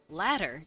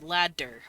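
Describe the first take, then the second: First: The middle D is a quick, light tap. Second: The middle D is a hard, full stop. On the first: The speaker calls it right. "you let your tongue roll that D" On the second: The speaker calls it wrong. "when you hit the D hard"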